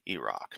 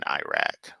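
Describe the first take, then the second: First: The name is said in a polished way. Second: The name is said in a rustic way. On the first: The speaker calls it right. "my understanding is is the correct way" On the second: The speaker calls it wrong.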